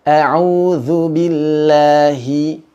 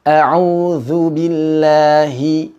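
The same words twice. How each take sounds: No difference in how they are said.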